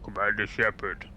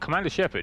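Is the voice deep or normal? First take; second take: deep; normal. First: It is said in a put-on deep voice. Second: It is said in a normal voice.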